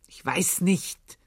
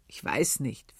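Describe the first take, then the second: First: Impatient. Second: Said in the usual way. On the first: A narrator's reading. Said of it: "wiederholte er ungeduldig".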